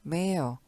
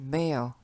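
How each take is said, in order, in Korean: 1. 영국식 억양으로 발음됩니다. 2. 영국식 억양으로 발음됩니다.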